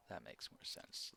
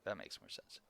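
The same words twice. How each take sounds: First: Soft unvoiced whisper. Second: Said in the usual way. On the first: Real, not acted. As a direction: breathe it quietly. Repeated line, whispered.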